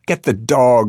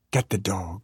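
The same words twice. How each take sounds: First: Louder, insistent yelled order; raised, emphatic call; mother's yell. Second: Softer first call; subdued opening call; held-back yell. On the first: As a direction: yell it out urgently. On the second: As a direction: start the yell small. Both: A narrator's reading. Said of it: "my mother yelled".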